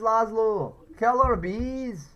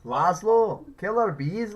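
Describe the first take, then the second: First: Louder, higher, slowed drawn-out yell; slow, stretched, higher caller yell; frantic radio caller shout. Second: Louder, higher mock caller yell; shouted radio caller impression. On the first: Retold or imitated. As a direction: stretch the killer bees into a frantic wail. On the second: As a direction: call out like a panicked radio caller. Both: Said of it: "one of the callers ... talking about killer bees".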